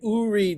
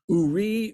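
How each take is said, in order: First: The stress is on the first syllable. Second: The stress is on the second syllable. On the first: The speaker calls it wrong. "I put the emphasis without paying attention to the trup marks on the first syllable" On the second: The speaker calls it right. "it's supposed to be the second syllable, not the first"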